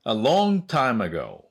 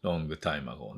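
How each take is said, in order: First: Slow, louder-than-chat English with "long" stretched high; slow model reading. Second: Said in the usual way. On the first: Shown as a demonstration. Teacher introducing the idiom for learners, slow careful enunciation. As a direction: model it slowly and clearly for learners.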